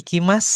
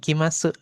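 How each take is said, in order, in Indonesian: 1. Kata ini berakhir dengan bunyi s, tanpa vokal. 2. Kata ini berakhir dengan vokal u yang penuh. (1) "kalau ada huruf su di akhir dibacanya itu jadi s, jadi s aja" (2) "bukan ikimasu"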